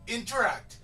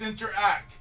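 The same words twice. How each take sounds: First: The word ends with a t sound. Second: The word ends without a t sound. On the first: The speaker calls it wrong. "No, you're not. Then you're not paying because interact doesn't exist" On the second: The speaker calls it right. "It's interact. There's a reason why there's no T at the end"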